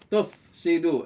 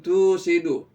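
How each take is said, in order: First: The word is said with a clear f sound. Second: The word is said without an f sound. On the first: The speaker calls it right. "bibir saya ini ketemu dengan gigi atasnya" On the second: The speaker calls it wrong. "bukan tusidu"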